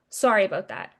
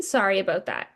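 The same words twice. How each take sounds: First: Offhand sorry. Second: Incredulous echo. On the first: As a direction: toss off "Sorry about that." lightly and falling, a casual brush-off. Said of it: "they call me and they go". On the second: Patient echoing the clinic's apology back, incredulous. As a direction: repeat "sorry about that?" in disbelief with a falling scoff. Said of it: "And I'm like". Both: Retold or imitated.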